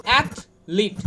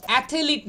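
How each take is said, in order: First: অ্যাথলিট as "ath... lit"; two separated syllables in অ্যাথলিট; no vowel between "th" and "l" in অ্যাথলিট; correct pronunciation. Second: অ্যাথলিট as "a-the-lit"; extra vowel after "th" in অ্যাথলিট; three-syllable অ্যাথলিট; common mispronunciation. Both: Shown as a demonstration. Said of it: "অ্যাথলিট নয় কিন্তু".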